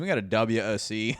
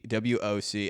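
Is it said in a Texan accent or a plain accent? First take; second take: Texan; plain. First: It is said in a Texan accent. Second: It is said in the speaker's normal accent.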